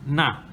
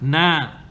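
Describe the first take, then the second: First: The vowel is short, held one count. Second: The vowel is long, held two counts. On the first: "So you have na" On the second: "the aleph lengthens it, elongation, so you have na, two counts"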